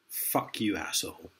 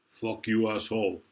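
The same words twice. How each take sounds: First: It is said in the speaker's ordinary accent. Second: It is said in an imitated Austrian-style accent.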